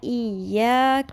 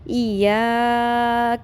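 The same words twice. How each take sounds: First: The 'ya' vowel is kept short. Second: The 'ya' vowel is stretched out very long. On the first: The speaker calls it right. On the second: The speaker calls it wrong.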